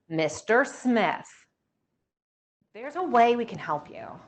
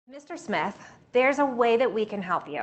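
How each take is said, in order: First: The voice sounds dull and flat. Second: The voice sounds bright and happy. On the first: The speaker may come across as condescending. The speaker calls it wrong. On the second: The speaker sounds friendly and eager to help. The speaker calls it right.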